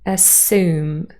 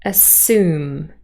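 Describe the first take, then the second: First: The s is followed directly by the vowel. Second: The s is followed directly by the vowel.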